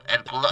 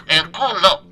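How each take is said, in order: First: Said in the usual way. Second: "El culo" louder, in a Castilian Spanish accent; "El culo" with the accent of Spain put back on. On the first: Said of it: "no tengo el acento". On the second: Shown as a demonstration. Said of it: "Ahora sí, tengo el acento".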